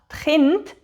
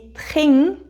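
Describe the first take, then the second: First: The word is said with an nd sound. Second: The word is said with an ng sound. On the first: "Statt «die Kind»" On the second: "sage ich «die Ching»"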